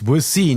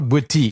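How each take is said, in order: First: The name is said with an s sound. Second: The name is said with a t sound. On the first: The speaker calls it right. "It's Boissy" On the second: The speaker calls it wrong. "not Boiti"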